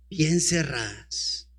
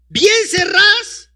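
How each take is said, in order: First: Bien cerradas said low, soft and slow, falling on bien; low soft answer. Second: Bien cerradas asked high and slow, rising on bien; high drawn-out question. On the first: Preacher answering his own question, low quiet emphasis. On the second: Preacher quizzing the congregation, high slow rising question. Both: Shown as a demonstration. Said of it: "¿Y las puertas estaban cómo?".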